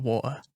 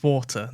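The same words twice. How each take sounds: First: "water" said the American way, flapped d-like t and a final r; water as "wadder" with the r sounded, like an American. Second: "water" said the British way, long "aw", no final r, clear t; water with a crisp t and dropped r, as a Brit says it. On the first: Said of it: "It's water". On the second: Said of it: "not, not water". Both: Shown as a demonstration.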